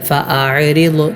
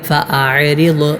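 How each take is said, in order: Both takes have the same delivery.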